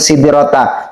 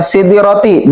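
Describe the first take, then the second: First: The word ends with an 'a' vowel. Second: The word ends with an 'i' vowel. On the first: The speaker calls it right. "kalimat yang benarnya adalah" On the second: The speaker calls it wrong. "dia membaca sidrati bukan sidrata"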